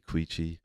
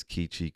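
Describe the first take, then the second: First: "Queechee" with a KW sound at the start; second pronunciation variant. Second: "Keechee" with a plain K at the start; first pronunciation variant. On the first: Giving listeners the other way to say the town, "Queechee" with KW. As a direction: say "Queechee" as KWEE-chee, W after the K. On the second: Giving listeners one way to say the town, "Keechee" with plain K. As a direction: say "Keechee" as KEE-chee, no W sound. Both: Shown as a demonstration. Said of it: "I've heard it both ways".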